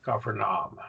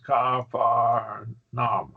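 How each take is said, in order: First: Said in the usual way. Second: Capernaum said very slowly, each vowel an open ah; ah sounds spelled out. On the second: Shown as a demonstration. Teacher showing a student, slow drawn-out Capernaum with ah sounds. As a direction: stretch Capernaum into three slow syllables with broad ah vowels. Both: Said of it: "See, ah sounds".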